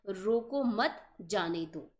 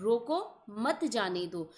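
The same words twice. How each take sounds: First: रोको मत said together, then a clear pause before जाने दो; pause after मत. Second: रोको set apart by a pause, then मत जाने दो together; pause after रोको. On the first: Teacher showing students the correct comma, pause after मत. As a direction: slowly, break the phrase after मत. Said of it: "जबकि होना क्या चाहिए था". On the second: Teacher showing students the comma's effect, pause after रोको. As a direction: break after रोको, slowly grouping मत जाने दो. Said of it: "रोको के बाद विराम चिन्ह". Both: Shown as a demonstration.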